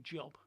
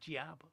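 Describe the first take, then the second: First: The vowel is rounded, as in British English. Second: The vowel is open and unrounded, American-style. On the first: "they don't say job" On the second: "They say jab. They can't get away from the American accent"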